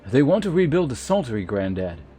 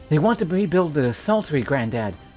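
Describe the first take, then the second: First: It is said in a plain, non-whiny voice. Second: It is said in a whiny put-on voice.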